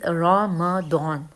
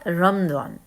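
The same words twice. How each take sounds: First: A vowel follows the m, giving three syllables. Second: The r and m run together, giving two syllables. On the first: The speaker calls it right. "The word is रमदान" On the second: The speaker calls it wrong. "जो लोग रे और मीम को मिला देते हैं और मीम पे साकिन लगा देते हैं, दैट इज़ रॉन्ग"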